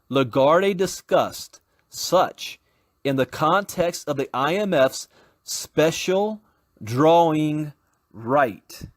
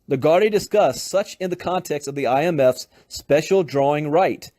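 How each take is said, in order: First: It is read at a slower pace. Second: It is read at a faster pace.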